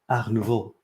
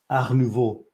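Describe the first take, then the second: First: It is said with a French accent. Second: It is said with a French accent.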